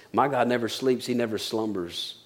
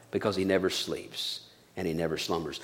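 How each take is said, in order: First: Soft reading. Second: Very soft, low hushed line. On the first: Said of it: "Psalm one twenty-one says". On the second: Preacher to the congregation, repeating the psalm in a hush. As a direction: drop to a near hush for the promise. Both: Acted.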